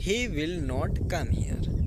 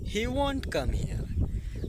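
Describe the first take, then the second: First: Every word is said in full. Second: 'Will not' is shortened into one word. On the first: "पहला तरीका" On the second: "ये तरीका fast तरीका है"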